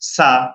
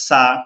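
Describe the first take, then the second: No difference in how they are said.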